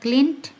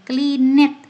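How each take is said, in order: First: The ending is a plain consonant sound. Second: The ending adds an extra 'it' syllable. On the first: The speaker calls it right. "Yang ada cleaned" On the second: The speaker calls it wrong. "Tidak ada cleaned"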